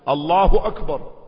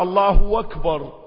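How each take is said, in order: First: No extra sound comes before akbar. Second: An extra w sound comes before akbar. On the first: The speaker calls it right. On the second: The speaker calls it wrong.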